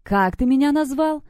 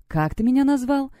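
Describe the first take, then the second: First: Much higher, emphatic repeat; angry insistent demand. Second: Higher, icy challenge; cold demand. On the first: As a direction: hammer it out word by word. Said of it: "стала топать ногой в такт своим". (гневно, чеканя слова) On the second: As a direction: ask it coldly, taking offence. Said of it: "переспросила она холодным голосом". (холодный, оскорблённый вопрос) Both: A narrator's reading.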